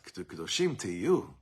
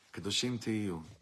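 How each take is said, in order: First: It sounds alarmed and pressing, like a demand. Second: It sounds calm and reassuring, like a promise. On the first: You had better become holy. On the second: You are promised that you will be holy. "it's hearing the promise"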